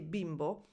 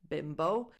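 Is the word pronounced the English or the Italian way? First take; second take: Italian; English. First: It is said with an Italian pronunciation. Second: It is said with an English pronunciation. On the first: It means a little boy. "in Italian when we say bimbo" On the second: It is an insult to women. "again with this pronunciation"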